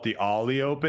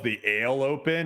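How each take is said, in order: First: The name begins with an 'ah' vowel. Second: The name begins with an 'ay' vowel. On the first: It sounds sophisticated and nice. The speaker calls it right. "it sounds a lot more sophisticated and nice" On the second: It sounds lame. The speaker calls it wrong. "it's kind of like lame"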